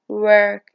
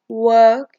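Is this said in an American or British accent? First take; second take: American; British. First: It is said with an American accent. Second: It is said with a British accent. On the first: "in American" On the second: "in British"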